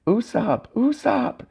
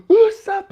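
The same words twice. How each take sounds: First: High falsetto cry at held-back volume; high, contained panicked wail; mock screaming. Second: Very high, loud shriek of the name; piercing demonstration scream. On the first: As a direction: call the name in a restrained shriek. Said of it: "And they're screaming". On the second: Shown as a demonstration. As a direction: scream it out in falsetto. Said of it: "scream it really loud".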